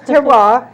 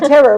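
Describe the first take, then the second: First: The word ends with a 'wahr' sound. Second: The word ends with a plain 'er' sound. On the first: The speaker calls it right. "it's terroir" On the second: The speaker calls it wrong. "Sometimes some people have a hard time pronouncing it"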